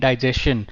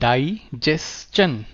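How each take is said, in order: First: The ending is pronounced with a 'shun' sound. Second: The ending is pronounced with a 'chun' sound. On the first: The speaker calls it wrong. "हम इसको कैसे बोलते हैं?" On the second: The speaker calls it right. "S T I O N hai to chan"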